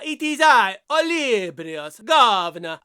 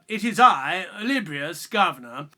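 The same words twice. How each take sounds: First: It is spoken with a put-on Italian accent. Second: It is spoken without any put-on accent. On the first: "what's with the uh, Italian accent?" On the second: "How about this?"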